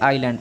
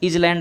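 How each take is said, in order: First: The word is said with no s sound. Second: The word is said with a z sound. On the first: The speaker calls it right. "इसे आइलैंड पढ़ेंगे" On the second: The speaker calls it wrong. "इजलैंड आपका गलत माना जाएगा"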